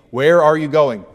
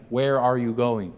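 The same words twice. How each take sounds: First: Louder, pressing the question; Peter's loud demand; insistent. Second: Said in the usual way. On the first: Acted. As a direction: demand the answer. Question said with force.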